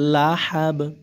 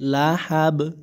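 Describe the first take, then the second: The two takes are said the same way.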